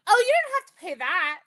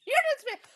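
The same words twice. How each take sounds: First: Higher, eager quoted reassurance; bright sales pitch in a friend's voice, a bit louder; friend eagerly reassuring. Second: Much higher, gleeful repeat of the line; squealing repeat. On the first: Friend telling the anesthesiologist about the sale, eager. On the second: Friend repeating the sale pitch to the doctor, squealing high. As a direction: push it way up, delighted. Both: Retold or imitated. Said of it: "And my friend goes".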